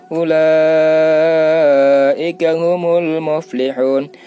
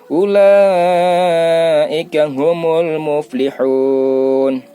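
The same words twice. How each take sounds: Both takes have the same delivery.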